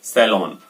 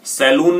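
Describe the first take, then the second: First: सैलून said as "sa-LON", falling; correct O version. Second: सैलून said as "sa-LOON"; wrong OO version. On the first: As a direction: put an O, not OO, in सैलून. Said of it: "इसको आप बोलेंगे सैलून". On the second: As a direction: put a long OO in सैलून. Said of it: "सैलून नहीं बोलेंगे". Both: Shown as a demonstration.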